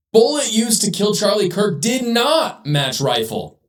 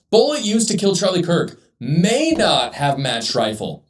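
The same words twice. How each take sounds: First: Headline read slowly with not punched; slow down and lean on "not" in the headline; stress on not. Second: "may" leaned on as the fair version; stress on may. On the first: Commentator rereading the Daily Mail headline, stressing "not". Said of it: "Let's go back to the headline". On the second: Commentator offering the honest headline, stressing "may". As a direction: read it with the weight on "may". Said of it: "If you would have said, just said". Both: Shown as a demonstration.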